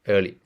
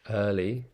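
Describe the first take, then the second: First: It is spoken in an Indian accent. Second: It is spoken in a British accent.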